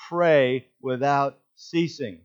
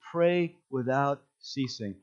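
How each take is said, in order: First: Slow, weighty "Pray without ceasing"; emphatic. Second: Said in the usual way. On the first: Shown as a demonstration. Preacher drives the verse home to the church, slow and weighty. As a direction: lean on each word of "Pray without ceasing". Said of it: "right in the middle of that he says". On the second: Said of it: "I like the way".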